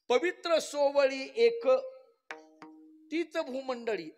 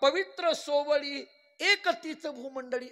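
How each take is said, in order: First: The pause falls right after the word ek. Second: The pause falls right before the word ek. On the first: The word ek belongs with the holy and pure. "एक शब्द हा पवित्र सोवळीला जोडायचा" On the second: The word ek belongs with the rest of the line. "तीच भूमंडळीला राहू द्यायचा"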